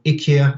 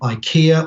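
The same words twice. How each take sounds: First: The name has a Swedish-style pronunciation. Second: The name has an English-style pronunciation.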